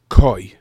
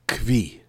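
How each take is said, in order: First: The word has no v sound before the vowel. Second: The word has a v sound before the vowel. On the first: This is probably the correct pronunciation. "Probably the correct way to pronounce it is koi" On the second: This is the habitual pronunciation from school. "when I was in yeshiva, we said kvi"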